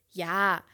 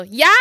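First: Soft, low, reluctant yes; retold half-hearted agreement; resigned reply. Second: Hopeful, rising mock question; questioning lift on a single word; Giovanni. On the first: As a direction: give in quietly. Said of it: "Und ich so". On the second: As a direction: imitate an eager caller checking the answer. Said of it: "Und er so".

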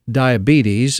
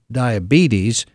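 First: Diabetes as DYE-a-bee-TUS, stress on di and us; slow Southern diabetes, ending in tus, stress on first and last syllables; Southern grandmother pronunciation. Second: Diabetes said the usual way, ending in teez; standard pronunciation. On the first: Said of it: "emphasis on di and us". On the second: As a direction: say diabetes plainly as dye-a-BEE-teez. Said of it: "you're saying it wrong". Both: Shown as a demonstration.

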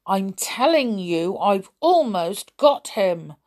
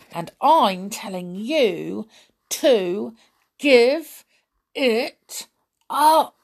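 First: Through clenched teeth. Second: Insisting, builds to louder; firm, rising to loud. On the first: A narrator's reading. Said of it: "Mike spoke through clenched teeth". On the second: Acted. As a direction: push harder with each word. Sully insists, rising to a shout.

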